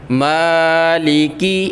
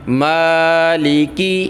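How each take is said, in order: The two takes are said the same way.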